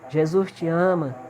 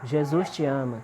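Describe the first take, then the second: First: It is said in a higher, stronger voice. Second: It is said in a normal voice.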